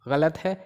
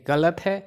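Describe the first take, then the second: The two takes are said the same way.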